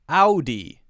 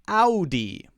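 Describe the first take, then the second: First: The first syllable has the 'ow' vowel. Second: The same.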